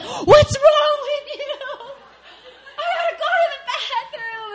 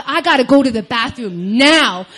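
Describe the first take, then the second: First: Hammed-up furious desperation with a laugh in it; mock angry outburst. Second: Louder, mildly desperate demand; urgent plea. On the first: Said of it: "getting more and more angry". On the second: Retold or imitated. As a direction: press it like you can barely hold it. Urgent retold demand for bathroom.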